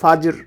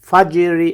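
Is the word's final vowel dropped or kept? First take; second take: dropped; kept. First: The word ends on a consonant, vowel dropped. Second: The word keeps its final vowel. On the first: The reader stops on this word. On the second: The reader continues without stopping.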